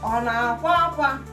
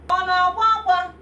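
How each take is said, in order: First: The question starts on a low tone. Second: The question starts on a high tone. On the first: The speaker calls it right. "you have to use low tone" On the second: The speaker calls it wrong. "You will not say"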